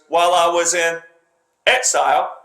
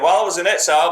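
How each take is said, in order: First: A pause comes before a strongly emphasized 'exile'. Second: The phrase runs straight through without emphasis. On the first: The word is highlighted as meaningful. "he pauses and he puts that word basically on a pedestal where he puts emphasis around it ... that's how he does it" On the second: The word is just passing information. "He's not saying"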